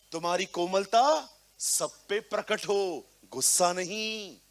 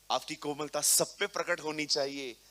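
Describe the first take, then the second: First: Louder proclaiming of तुम्हारी कोमलता सब पे प्रकट हो; emphatic preaching. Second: Said in the usual way. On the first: Shown as a demonstration. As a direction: declare it to the whole hall. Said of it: "Be humble, be gentle". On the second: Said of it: "कहता है ना Paul".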